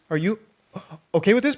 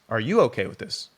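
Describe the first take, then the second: First: The question is asked in an unsure, hesitant voice. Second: The question is asked in a firm, confident voice. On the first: "but in the moment I was saying like this" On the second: "I'm saying that right now very confidently"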